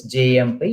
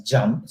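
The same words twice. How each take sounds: First: "J M P" said letter by letter; name each letter, jay-em-pee; spelled out. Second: "jump" as one syllable, for JMP; pronounced as a word. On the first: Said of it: "even though it's J M P". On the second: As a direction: read the initials as the word "jump". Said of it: "it is pronounced as jump". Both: Shown as a demonstration.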